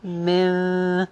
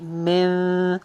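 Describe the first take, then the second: Both takes have the same delivery.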